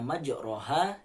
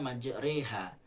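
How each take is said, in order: First: The vowel after the r is a plain open a. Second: The vowel after the r leans toward e. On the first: "yang awalnya majroha" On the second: "dibaca majreha"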